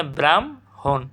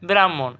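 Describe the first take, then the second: First: ব্রাহ্মণ slowly as "bram... hon"; correct pronunciation. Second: ব্রাহ্মণ quickly as "brammon"; as written. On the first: Teacher showing students the correct sound, slow split pronunciation. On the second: Teacher reading out the question word, everyday pronunciation. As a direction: say ব্রাহ্মণ in one piece, no h. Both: Shown as a demonstration. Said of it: "সঠিক উচ্চারণ কী হবে?".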